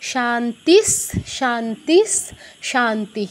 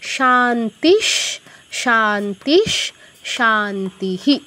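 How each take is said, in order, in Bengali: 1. প্রথম দুটি শব্দ 's' ধ্বনিতে শেষ হয়। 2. প্রথম দুটি শব্দ 'sh' ধ্বনিতে শেষ হয়। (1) "এই যে দন্ত স চলে আসতো বিসর্গের জায়গায়" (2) "বিসর্গের জায়গায় একটা তালব্য শ হসন্ত আসছে।"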